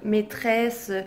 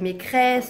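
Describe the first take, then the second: First: The middle cluster is pronounced with a 'tr' sound. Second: The middle cluster is pronounced with a 'cr' sound. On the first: This is the correct adult pronunciation. The speaker calls it right. "il n'arrive pas à dire le treux" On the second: This imitates how the child says it. The speaker calls it wrong. "Il dit toujours creux, donc maîtresse, ça fait"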